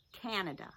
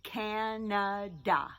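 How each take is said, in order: First: Said in the usual way. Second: Slow "Canada" with each syllable clear; teacher stretching out "Canada". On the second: Shown as a demonstration. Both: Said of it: "first syllable in Canada".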